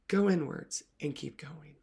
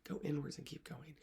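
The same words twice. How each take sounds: First: Slow and loud, pressing every word; emphatic mantra. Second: Much softer, letting it fade away; softened mantra. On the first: Coach urging readers inward, slow emphatic mantra. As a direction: plant the instruction firmly, slowly. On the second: Coach closing the mantra to readers, soft fading repeat. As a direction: ease off, let the words settle. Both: Shown as a demonstration.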